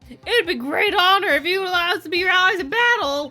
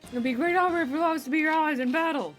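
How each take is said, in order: First: It is said in a put-on character voice. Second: It is said in a plain, normal voice.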